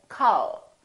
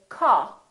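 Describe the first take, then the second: First: The final L is clearly pronounced. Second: The final L is dropped, tongue stays down. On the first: The speaker calls it right. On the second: The speaker calls it wrong.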